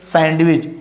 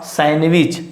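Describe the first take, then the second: First: The D sound is pronounced. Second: The D sound is silent. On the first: The speaker calls it wrong. "don't say sandwich" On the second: The speaker calls it right. "Here is D is silent"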